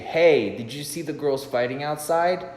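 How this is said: It sounds rehearsed and scripted.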